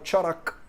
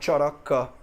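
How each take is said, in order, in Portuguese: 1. A palavra termina sem a vogal final. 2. A palavra termina com a vogal final pronunciada. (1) "É muito comum aqui na Índia você falar Charak" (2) "em vez de falar Charaka"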